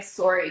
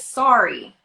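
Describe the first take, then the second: First: It has a rounded Canadian 'o' sound. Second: It has an open American 'ah' sound. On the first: "Canadian until my about and my sorry came out because we say the O" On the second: "the standard American is sorry"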